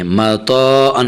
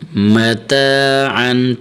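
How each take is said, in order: First: The t sound is heavy and emphatic. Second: The t sound is plain and light. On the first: The speaker calls it wrong. "इस तरह नहीं" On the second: The speaker calls it right. "त अलिफ ज़बर त"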